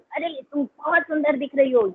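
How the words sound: It is said in an angry, shouting tone.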